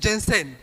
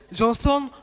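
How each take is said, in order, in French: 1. Chaque voyelle devient un son 'e'. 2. Les voyelles se disent comme des sons 'o' normaux. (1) "il mettait partout E" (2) "si tu réponds au nom de Johnson"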